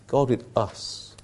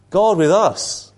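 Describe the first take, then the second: First: Soft hushed refrain. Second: God punched loud and slow; emphatic refrain. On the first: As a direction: let "God with us" sink into a hush. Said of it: "repeated refrain, softly". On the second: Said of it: "repeated refrain, emphatic". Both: Shown as a demonstration.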